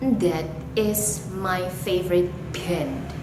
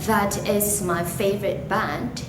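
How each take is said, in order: First: The consonants are pronounced thickly and heavily. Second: The consonants are pronounced lightly. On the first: "we pronounce it really thickly or heavily" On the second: "instead of saying"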